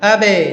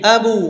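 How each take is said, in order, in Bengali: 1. b-এর পরের প্রতিধ্বনি i-এর মতো শোনায়। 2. b-এর পরের প্রতিধ্বনি u-এর মতো শোনায়। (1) "জের হয়ে গেল" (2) "পেশ হয়ে গেল"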